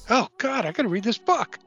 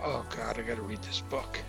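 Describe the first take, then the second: First: It sounds eager and excited. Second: It sounds reluctant and dreading.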